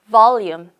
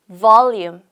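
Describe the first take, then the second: Both takes have the same delivery.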